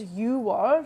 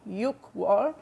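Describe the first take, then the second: First: A consonant before the second syllable is dropped. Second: A consonant before the second syllable is kept. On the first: The speaker calls it right. "June is 유월" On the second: The speaker calls it wrong. "not 육월"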